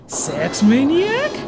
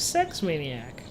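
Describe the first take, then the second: First: The voice rises at the end. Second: The voice falls at the end.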